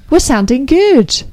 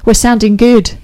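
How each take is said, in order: First: Higher, slow, showy repeat; voice-trained delivery. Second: Said in the usual way. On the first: Pretend. Radio host shows off after voice training, playfully over-enunciated. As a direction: show off the trained voice, drawn out. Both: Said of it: "having some voice training".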